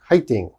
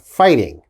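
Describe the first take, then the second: First: It is said with a Korean accent. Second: It is said with a plain English accent.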